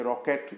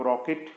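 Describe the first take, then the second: First: रॉकेट ending in an open "ket"; spelling pronunciation. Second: रॉकेट ending in a short "it". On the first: Teacher showing learners what to avoid, रॉकेट with open "ket". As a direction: say रॉकेट with a full e in the last syllable. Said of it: "बोलने की ज़रूरत नहीं है". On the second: Teacher showing learners the accepted sound, रॉकेट with short "it". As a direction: say रॉकेट with a light short-i last syllable. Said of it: "बोलेंगे, रॉकेट बोलने की ज़रूरत नहीं है". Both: Shown as a demonstration.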